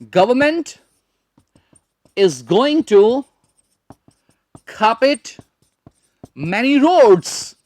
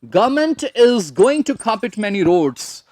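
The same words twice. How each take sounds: First: Very slow, long pauses between phrases; practice sentence. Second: Slow but connected, without breaks; whole practice sentence. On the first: Teacher builds a practice sentence, slow phrase-by-phrase delivery. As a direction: dictate it in chunks, stretched words. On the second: Teacher repeats for practice, slow joined-up delivery. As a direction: run the sentence through in careful English. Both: Shown as a demonstration. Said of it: "उससे practice हो जाएगी".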